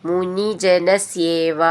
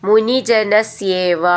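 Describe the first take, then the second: Both takes have the same delivery.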